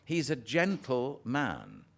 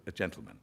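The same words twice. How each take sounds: First: "gentle man" slow, two separate words; split into two words. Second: "gentleman" as one word, lower. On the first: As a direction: say "gentle man" slowly, stressing gentle. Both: Shown as a demonstration.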